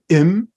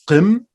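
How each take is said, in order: First: The word starts directly with a vowel. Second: The word starts with a back q consonant. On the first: "They don't put the qam, they just say im instead" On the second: "but I will be using qim"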